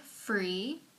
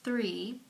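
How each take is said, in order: First: The word begins with an f sound. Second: The word begins with a th sound. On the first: The speaker calls it wrong. "F R E E" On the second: The speaker calls it right. "for T H R E E"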